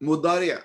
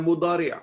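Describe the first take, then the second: The two takes are said the same way.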